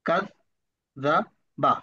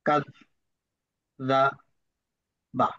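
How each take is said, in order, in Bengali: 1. শব্দাংশগুলো মাঝারি গতিতে পড়া হচ্ছে। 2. শব্দাংশগুলো একটু দ্রুত পড়া হচ্ছে। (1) "তৃতীয়বার আরো দ্রুত" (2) "দ্বিতীয়বার একটু তাড়াতাড়ি পড়ার চেষ্টা করব"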